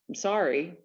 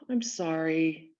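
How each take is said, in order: First: The apology sounds curt and dismissive. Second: The apology sounds warm and sincere. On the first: The speaker just wants the other person to stop pressing. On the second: The speaker genuinely regrets what happened.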